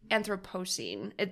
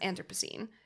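First: Every syllable is said fully and carefully. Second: The syllables are run together quickly. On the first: "That's how it's spelled" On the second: "when you say it fast"

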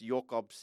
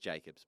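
First: The name is given its Afrikaans pronunciation. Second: The name is given its English pronunciation. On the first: "it's Jokobs in Afrikaans" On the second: "but in English it's just Jacobs"

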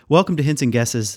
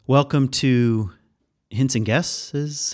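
First: It is said plainly and with confidence. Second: It is said hesitantly, like a guess. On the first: The speaker states the words with certainty. The speaker calls it right. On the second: The speaker is not sure of the words. The speaker calls it wrong.

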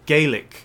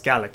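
First: The word is said the Irish way. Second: The word is said the Scottish way. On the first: It refers to the language of Ireland. "Gaelic, which is spoken in Ireland" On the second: It refers to the language of Scotland. "Scots Gaelic, and we're pronouncing it like that"

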